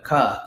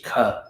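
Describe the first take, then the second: First: "ka" with a plain K, no puff of air; unaspirated "ka", as in the Sanskrit alphabet; simple unaspirated K. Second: "ka" with a puff of air after the K; aspirated "ka", K plus H. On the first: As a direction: say "ka" without breathing out on the K. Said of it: "just a simple K". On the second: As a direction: breathe out on the K of "ka", as kha. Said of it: "and then K H". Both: Shown as a demonstration.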